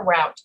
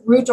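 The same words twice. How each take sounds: First: Second "route" rhyming with "out"; route as rout. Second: First "route" rhyming with "boot"; route as root. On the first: Teacher offers East Coast options, "route" like "out". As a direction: say "route" with an OW vowel. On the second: Teacher offers East Coast options, "route" as "root". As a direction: say "route" with a long OO vowel. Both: Shown as a demonstration. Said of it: "you can use either word".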